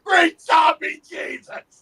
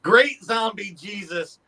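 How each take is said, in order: First: Much higher, louder, slow drawn-out yell; slow booming battle-cry yell; full shout. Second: Slow, unraised recital of the line; walk through the line slowly without yelling; slow mild take on the movie yell; slow retold line. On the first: Acted. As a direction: bellow it like the Cretan in the bar. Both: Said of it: "I yelled".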